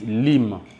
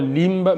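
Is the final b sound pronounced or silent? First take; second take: silent; pronounced. First: No b sound is heard at the end. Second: A b sound is heard at the end. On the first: The speaker calls it right. "mais dites lime" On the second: The speaker calls it wrong. "ne prononcez pas encore limbe"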